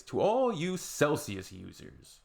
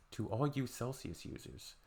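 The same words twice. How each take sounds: First: Slow, higher proclamation; slow, grand address. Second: Much softer, muttered repeat; quiet repeat. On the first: Addressing Celsius users, slow mock-grand. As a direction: declaim it slowly. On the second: Addressing Celsius users, quiet repeat. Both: Real, not acted.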